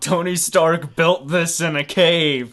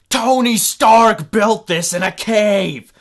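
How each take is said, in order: First: It is said in the speaker's own normal voice. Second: It is said in a put-on villain's voice.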